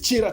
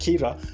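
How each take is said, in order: First: The name begins with a sound other than K. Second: The name begins with a hard K sound. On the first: This is the town's actual name. "but it is Chira town" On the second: This is how it would be said from Kenya. "from Kenya, I can call it Kira, you know, K I R A"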